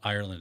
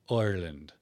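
First: The first vowel sounds like 'eye'. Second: The first vowel sounds like a soft 'oy'. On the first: "it's not Ireland" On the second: "I's in Irish accents are like oi, but like a soft oi"

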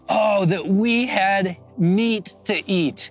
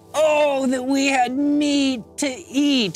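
First: It is read in a plain, neutral way. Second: It is read in a whiny, complaining way.

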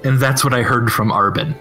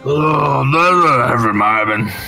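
First: It is said in a plain, sober voice. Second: It is said in a weary, tipsy voice.

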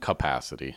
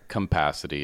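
First: The word has no M-like sound in it. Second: The word has an M-like sound in it. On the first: The speaker calls it right. "instead of capacity" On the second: The speaker calls it wrong. "I say capacity"

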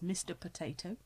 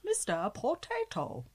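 First: It is said in the speaker's normal voice. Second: It is said in an imitated character voice.

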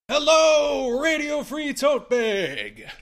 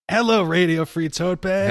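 First: The greeting is read with excited, exclaiming energy. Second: The greeting is read in a calm, flat way. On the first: The speaker calls it right. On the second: The speaker calls it wrong.

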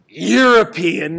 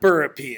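First: The word begins with a 'y' sound. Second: The word begins with a 'b' sound. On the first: The speaker calls it right. "first of all, European, not Burpean" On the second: The speaker calls it wrong. "not Burpean"

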